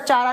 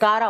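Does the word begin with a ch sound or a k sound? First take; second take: ch; k. First: The word begins with a ch sound. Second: The word begins with a k sound. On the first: The speaker calls it wrong. "इसको कोई बच्चा चारा नहीं बोलेगा" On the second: The speaker calls it right. "कारा होता है"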